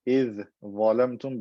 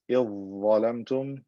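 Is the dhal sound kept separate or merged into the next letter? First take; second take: separate; merged. First: The dhal is pronounced separately before the next letter. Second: The dhal is merged into the following letter.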